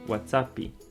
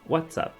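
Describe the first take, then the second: First: An extra 'ee' vowel is added after the p. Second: It ends on the p with no added vowel. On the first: "mas nós pronunciamos" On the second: "Essa é a forma, é, digamos, original da pronúncia"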